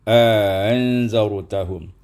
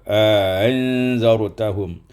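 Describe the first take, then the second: The two takes are said the same way.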